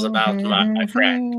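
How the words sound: It is read in an attempted British accent.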